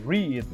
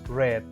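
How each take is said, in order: First: The vowel is long, like 'reed'. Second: The vowel is short, like 'red'. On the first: It is the present tense, to read. "que es leer" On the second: It is the past tense. "en pasado va a ser pronunciada como el color rojo en inglés"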